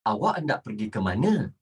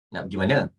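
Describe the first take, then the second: First: Low, brisk, fully worded formal Malay; formal textbook Malay. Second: Low, offhand everyday Malay question; casual colloquial Malay. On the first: Teacher models asking where you go, properly formal. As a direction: say every word properly, in a low register. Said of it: "you have to speak like this". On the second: Teacher mimics students asking where to, casual slang. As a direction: toss it out casually, low-pitched. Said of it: "you talk like that". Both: Shown as a demonstration.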